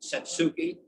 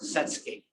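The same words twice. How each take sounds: First: The 'u' after the s is clearly voiced. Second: The 'u' after the s is nearly silent. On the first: The speaker calls it wrong. "it's not Satsuki" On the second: The speaker calls it right. "The U is ninety-eight percent silent"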